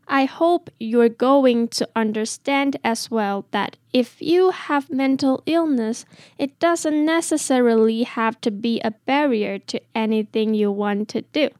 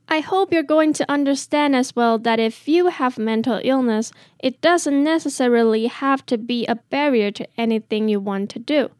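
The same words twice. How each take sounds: First: It is said a little more slowly. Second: It is said at normal speed.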